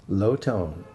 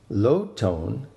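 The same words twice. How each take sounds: Both takes have the same delivery.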